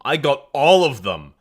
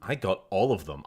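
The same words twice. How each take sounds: First: ALL punched out loud and drawn out; slow, loud repeat leaning hard on "all"; stress on ALL. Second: Said in the usual way. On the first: Acted. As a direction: hammer the word "all". Emphatic repeat to game trader.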